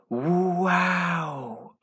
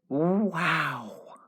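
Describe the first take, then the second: First: The word is stretched out over three syllables. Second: The word is said short and plain.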